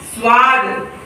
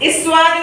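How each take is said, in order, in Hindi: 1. शब्द सीधे स के संयुक्त व्यंजन से शुरू होता है। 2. स की ध्वनि से पहले एक अतिरिक्त स्वर ध्वनि आती है। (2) "नहीं"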